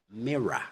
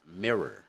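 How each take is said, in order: First: "mirror" as "mirra", final R silent; British "mirror" ending on open uh. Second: American "mirror" as "mirrer"; final R sounded in American "mirror". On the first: Teacher contrasts with American, British non-rhotic "mirror". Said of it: "in British". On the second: Teacher contrasts with British, American rhotic "mirror". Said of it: "In American". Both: Shown as a demonstration.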